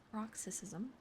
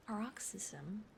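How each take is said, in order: First: Paroxysm said voiced and clear; paroxysm, pronounced again properly; corrected retake. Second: Paroxysm whispered, stumbling over the vowels; whispered first try. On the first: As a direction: paroxysm repeated with care. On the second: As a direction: paroxysm read slowly and unsure. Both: Real, not acted.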